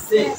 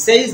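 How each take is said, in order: First: "সেজ" with a short e; corrected "says". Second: "সেজ" with a gliding ei vowel; wrong "says". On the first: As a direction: say "সেজ" as "sez", no glide. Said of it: "এটা হচ্ছে". ("সেজ" ছোট এ দিয়ে শুদ্ধ উচ্চারণ) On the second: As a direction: say "সেজ" as mistaken "seiz". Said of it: "এটা সেজ না". ("সেজ" এই-ধ্বনি দিয়ে ভুল উচ্চারণ) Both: Shown as a demonstration.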